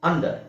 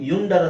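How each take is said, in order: First: The word begins with an 'uh' sound. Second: The word begins with a 'yu' sound. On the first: The speaker calls it right. "ಇಲ್ಲಿ ಅ ಅಂತ ಹೇಳ್ತಾ ಇದೀವಿ" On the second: The speaker calls it wrong. "ಯುಂಡರ್ ಅಂತ ಹೇಳಲ್ಲ"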